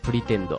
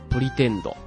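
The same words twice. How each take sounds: First: It is said with a native English pronunciation. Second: It is said with a Japanese katakana pronunciation.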